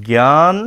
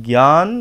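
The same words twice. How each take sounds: No difference in how they are said.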